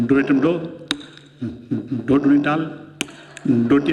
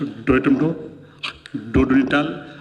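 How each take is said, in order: First: Lisping pupil reciting डो एटम डो; lisping child. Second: Second pupil lisps डो एटम डो, lower; lisping child. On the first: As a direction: say डो एटम डो with a childish lisp, lower. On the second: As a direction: repeat डो टू डाल with the same lisp. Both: Retold or imitated. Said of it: "छोरे तोतले". (तुतलाते बच्चे की आवाज़)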